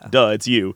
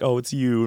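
First: It is said bluntly, as if obvious. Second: It is said shyly and sheepishly.

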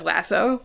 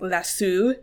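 First: It is said the American way. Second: It is said the British-Australian way. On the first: "instead of lasso" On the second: "people in the UK and Australia pronounce it as lasso"

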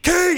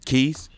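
First: The word is shouted in an angry outburst. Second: The word is said calmly and evenly.

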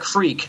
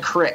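First: It is said with the standard pronunciation. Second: It is said with the local mountain pronunciation. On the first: This is not how the mountain people say it. "they don't call it a creek" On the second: This is how the mountain people say it. "They call it a crick"

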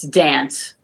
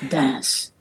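First: The name is said with an American pronunciation. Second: The name is said with a native pronunciation. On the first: The speaker calls it wrong. "if you were to say it like in American" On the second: The speaker calls it right. "I try to say it like the characters do"

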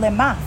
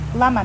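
First: The first vowel is a short 'e' sound. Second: The first vowel is an open 'a' sound. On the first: It asks for what purpose something is happening. "you could pronounce it a little differently. Lema for what?" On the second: It asks why something is happening. "Lama means why"

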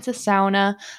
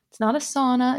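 First: Sauna is said the Upper Peninsula way. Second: Sauna is said the downstate Michigan way.

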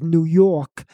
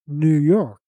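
First: It is said in a Brooklyn accent. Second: It is said in a standard accent. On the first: The speaker is a native New Yorker. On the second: An outsider is correcting the local way.

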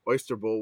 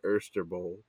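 First: It is said in a neutral accent. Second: It is said in a New Orleans accent.

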